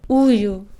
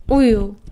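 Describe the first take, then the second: Both takes have the same delivery.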